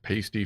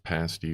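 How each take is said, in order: First: The first syllable sounds like 'paste'. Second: The first syllable does not sound like 'paste'. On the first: It names a nipple cover. "Like paste over here. A pasty is a nipple cover" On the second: It names the baked food. "pasty for whatever the hell you're talking about"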